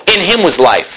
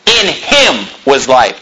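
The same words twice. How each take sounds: First: Said in the usual way. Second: HIM drawn out slowly, then a break; stress on HIM. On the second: Shown as a demonstration. Preacher repeats the verse to his congregation, stressing "him" slowly. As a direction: lean long on "him" at half speed.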